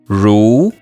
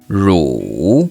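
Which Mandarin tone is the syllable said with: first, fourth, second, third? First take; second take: second; third. First: The pitch rises from middle to high. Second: The pitch dips low, then rises.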